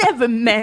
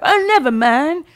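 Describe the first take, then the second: First: Weird character voice. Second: High silly voice; a goofy nobody, higher; weird character voice. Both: Retold or imitated. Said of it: "Who is that voice?".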